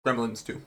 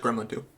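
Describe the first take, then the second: First: "Gremlins" with the final S, said softly; low, quiet correction to "Gremlins", plural S sounded; corrected to plural. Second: Said in the usual way. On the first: Real, not acted. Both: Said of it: "Sorry, plural".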